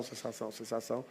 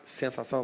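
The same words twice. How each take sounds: First: Sensação drops much softer, almost breathed; sensação sumindo, bem baixinho; fading echo. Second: Said in the usual way. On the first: Shown as a demonstration. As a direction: let each sensação fade away softly. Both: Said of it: "sensação repeated, fading".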